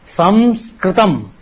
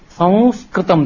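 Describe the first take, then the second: First: The nasal is an m with closed lips. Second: The nasal is purely nasal, lips stay open. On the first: The speaker calls it wrong. "in South India, it says" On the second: The speaker calls it right. "they will not close their lips with ma. Technically, that is the correct sound"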